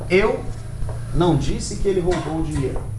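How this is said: The word eu is stressed. The point is who said it. "Se eu coloco a ênfase na palavra eu"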